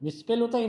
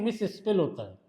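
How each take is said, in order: First: "मिसस्पेल" said as one joined word, single s; मिसस्पेल एक साथ. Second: "मिस स्पेल" split into two parts, both s sounds heard; मिस, स्पेल अलग-अलग. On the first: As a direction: run "मिसस्पेल" together with no break after मिस. ("मिसस्पेल" को बिना रुके एक शब्द में बोलें) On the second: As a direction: say "मिस", then a separate "स्पेल". ("मिस स्पेल" को दो अलग हिस्सों में बोलें) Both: Shown as a demonstration. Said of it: "मिस अलग बोल रहे हो".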